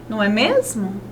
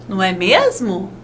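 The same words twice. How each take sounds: No difference in how they are said.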